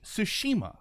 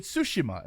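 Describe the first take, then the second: First: Tsushima stressed on the middle SHI; Tsushima said as tsu-SHI-ma; middle-syllable stress. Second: Tsushima stressed on the opening TSU; Tsushima said as TSU-shi-ma; first-syllable stress. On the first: Shown as a demonstration. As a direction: punch the second syllable of Tsushima. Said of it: "I stress the middle syllable". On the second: Retold or imitated. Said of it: "he kept calling it Tsushima".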